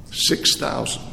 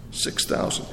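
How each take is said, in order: First: Said in the usual way. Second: Whispered repeat. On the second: Shown as a demonstration. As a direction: hush the number for awe. Answer, then whispered repeat.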